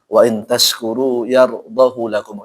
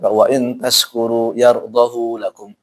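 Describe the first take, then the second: First: The vowel of hu is short. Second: The vowel of hu is held long. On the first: It is a special exception tied to meaning. "dia dipendekkan" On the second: It follows the usual rule. "seharusnya ... Dibaca panjang"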